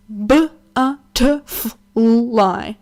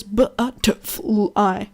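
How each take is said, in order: First: "butterfly" stretched very slow and loud; mocking a kid sounding out "butterfly"; drawn out butterfly. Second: "Butterfly" stretched very slow; a kid sounding out "Butterfly" again; drawn out butterfly. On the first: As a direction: drag out every syllable of "butterfly". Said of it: "he does that. He goes". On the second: Retold or imitated. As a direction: say "Butterfly" syllable by syllable, slowly. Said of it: "he does that".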